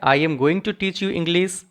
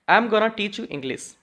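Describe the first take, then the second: First: Going to is said in full as two words. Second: Going to is reduced to one quick word, gonna. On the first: "यहाँ पे पॉजेज आपके आ रहे हैं" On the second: "हम इन्हें short कर देते हैं"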